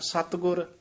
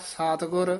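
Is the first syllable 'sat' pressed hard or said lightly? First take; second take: hard; light. First: The first syllable is pressed hard and tight. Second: The first syllable is said lightly, without pressure. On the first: The speaker calls it right. "ਸੱਤ ਤੇ ਕਸ ਕੇ ਬੋਲਣਾ" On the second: The speaker calls it wrong. "ਸਤਿਗੁਰ ਇਉਂ ਨਹੀਂ ਬੋਲਣਾ"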